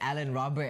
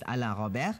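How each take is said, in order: First: The name is said with English pronunciation. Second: The name is said with French pronunciation. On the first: "in English we'll say just Alan Robert" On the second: "the French way is Alain Robert"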